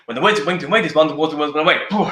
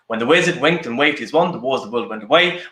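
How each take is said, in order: First: It is said at a fast pace. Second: It is said at a medium pace.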